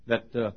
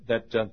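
The two takes are said the same way.

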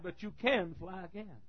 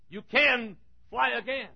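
First: Softer, slow, tender lean on can; soft promise. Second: Slow, high, CAN stressed; emphatic promise. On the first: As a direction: drop the voice, slowly. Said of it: "And he said". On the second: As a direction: lean on can, slowly. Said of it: "He's saying to you". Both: Acted.

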